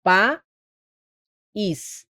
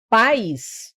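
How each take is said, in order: First: País broken by a long pause, pa... ís; exaggerated split of país into two beats; two syllables. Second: Pais as a single gliding syllable; unbroken pais, stressed on the a; one syllable. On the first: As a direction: leave a gap before the ís of país. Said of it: "Aí seria uma oxítona". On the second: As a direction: keep ai together in pais. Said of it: "A gente tem um monossílabo". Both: Shown as a demonstration.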